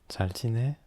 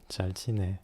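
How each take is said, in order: First: It is said with a questioning intonation. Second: It is said with a statement intonation. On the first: It asks how the other person is doing. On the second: It answers that everything is fine.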